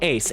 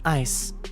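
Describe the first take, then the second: First: The name has the vowel of 'ace'. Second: The name has the vowel of 'ice'. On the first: The speaker calls it right. "it sounds like Ace" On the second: The speaker calls it wrong. "No, it sounds like Ace"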